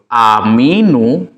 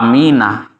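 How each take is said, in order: First: The word ends with a 'u' vowel. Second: The word ends with an 'a' vowel. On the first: "dia marfu ya, harokat akhirnya itu ... domah" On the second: "itu mansub, dia harokatnya fathah"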